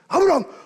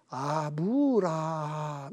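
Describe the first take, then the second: First: The name is called fast and urgently. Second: The name is called slowly and calmly.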